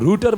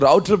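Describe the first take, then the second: First: The first vowel sounds like 'oo' in 'boot'. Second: The first vowel sounds like 'ow' in 'cow'. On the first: "कुछ लोग रूटर बोलते हैं" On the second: "कुछ लोग राउटर बोलते हैं"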